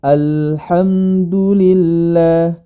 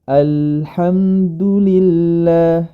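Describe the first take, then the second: No difference in how they are said.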